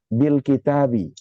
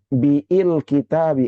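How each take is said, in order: First: The 'bil' is one short linked syllable. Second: The vowel after 'b' is drawn out long. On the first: The speaker calls it right. "Hamzahnya nggak dibaca" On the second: The speaker calls it wrong. "Apakah dibaca dengan biil kitabi? Enggak"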